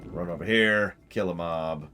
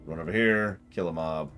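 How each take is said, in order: Both takes have the same delivery.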